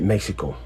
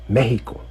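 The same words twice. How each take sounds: First: The middle consonant is said as ks. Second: The middle consonant is said as h. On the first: The speaker calls it wrong. "we don't even pronounce it Mexico" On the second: The speaker calls it right. "In Mexico, we pronounce it Mexico"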